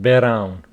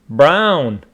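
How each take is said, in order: First: An extra vowel separates the b and r. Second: The b and r are said together. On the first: The speaker calls it wrong. "not brown" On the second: The speaker calls it right.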